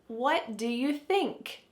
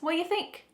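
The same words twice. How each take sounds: First: Every word is said slowly and fully. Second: The word 'do' is left out completely. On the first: The speaker calls it wrong. "do you think that we really say it this slowly?" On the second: The speaker calls it right. "Do is just gone"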